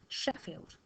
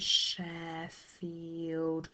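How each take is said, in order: First: The first vowel is short and quick. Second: The first vowel is drawn out long. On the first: The speaker calls it right. "very short vowel sounds" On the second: The speaker calls it wrong. "we don't say Sheffield"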